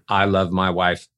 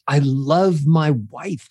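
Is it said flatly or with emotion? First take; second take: flatly; with emotion. First: It is said flatly, without emotion. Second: It is said warmly, with emotion.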